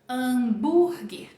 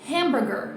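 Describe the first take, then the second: First: The stress is on the second syllable. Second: The stress is on the first syllable. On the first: "Sílaba tônica vai mudar também" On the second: "é a primeira parte"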